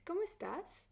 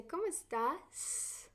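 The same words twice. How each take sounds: First: ¿Cómo estás? high and quick, falling off; a normal-length question; teacher's model question; proper question. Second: ¿Cómo estás? slow, estás drawn out and rising; slowed, elongated question; stretched last syllable. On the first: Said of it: "And that is a proper question". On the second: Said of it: "So you're kind of elongating". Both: Shown as a demonstration.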